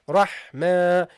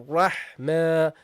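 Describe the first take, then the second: No difference in how they are said.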